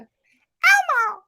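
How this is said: It is said in an imitated Elmo voice.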